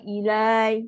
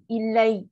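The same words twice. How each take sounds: First: The final syllable is drawn out long. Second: The final syllable is kept short. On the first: The speaker calls it wrong. "kan dia jadi mat. So salah" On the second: The speaker calls it right. "Dan pendek je lah"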